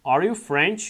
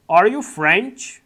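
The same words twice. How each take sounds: First: Said in the usual way. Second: Drawn out and louder, rising at the end; very slow model reading. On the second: Shown as a demonstration. Teacher modelling the question before repeating it, very slow. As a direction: lay each word out for beginners. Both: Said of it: "slow model then normal repeat".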